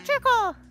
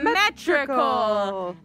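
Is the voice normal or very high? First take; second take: very high; normal. First: It is said in a very high voice. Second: It is said in a normal voice.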